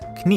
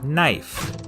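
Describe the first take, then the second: First: The word starts with a k sound. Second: The word starts with an n sound. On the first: This is the older pronunciation. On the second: This is the modern pronunciation.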